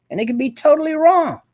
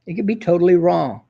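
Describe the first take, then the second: First: Wrong pitched way up then falling; rising indignation on totally wrong; high emphatic first take. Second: Said in the usual way. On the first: Shown as a demonstration. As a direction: lift the whole line high and land hard on wrong. Repeats line, first take raised.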